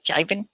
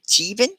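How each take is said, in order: First: "Jibin" said JAI-vin, as a question; "Jibin" with a long I, rising. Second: "Jibin" said JEE-vin, higher, as a question; "Jibin" with first vowel as in "see", rising. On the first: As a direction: try "Jibin" with first vowel as in "eye". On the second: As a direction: try "Jibin" with a long EE. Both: Shown as a demonstration. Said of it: "With the I".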